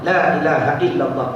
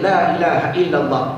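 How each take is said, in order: No difference in how they are said.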